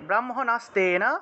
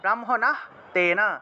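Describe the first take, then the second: First: It is said as one joined word with s. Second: It is split in two with h before tena.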